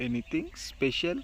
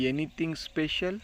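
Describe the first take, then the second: First: "Anything special?" with pitch falling on "special"; falling tune. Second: "Anything special?" with pitch rising on "special"; rising question tune. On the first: Teacher repeating the question with a falling tune. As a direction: settle "special" downward, as a statement. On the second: Teacher modelling the question with a rising tune. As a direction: ask it, lifting "special" upward. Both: Shown as a demonstration.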